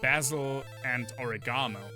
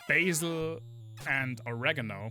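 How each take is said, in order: First: The herb names have a British pronunciation. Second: The herb names have an American pronunciation. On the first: "British people say" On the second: "Americans say"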